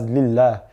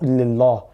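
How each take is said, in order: First: The l sound is thin and light. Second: The l sound is thick and heavy. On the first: The speaker calls it right. "pronounce the word with a thin lam" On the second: The speaker calls it wrong.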